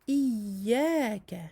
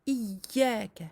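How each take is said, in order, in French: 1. Le son du y doublé est doux et fluide. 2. Le son du y doublé est bloqué et dur. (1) "c'est comme cela que l'on doit le prononcer" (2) "nous ne devons pas dire"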